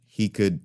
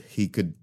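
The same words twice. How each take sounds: The two takes are said the same way.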